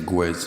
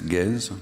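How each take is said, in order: First: The name is said the Italian way. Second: The name is said the French way. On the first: "I live in Italy now, so I say Guez. It's a more Latin" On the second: "In France, it's Gez"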